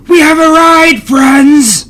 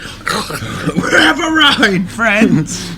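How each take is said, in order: First: Excited shout, high and loud. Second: Shouted through a mouthful, slowly; mouth full. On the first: Acted. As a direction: yell it to the whole bar. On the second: Retold or imitated. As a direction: yell it with food in your mouth. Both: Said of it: "with his mouth full of food".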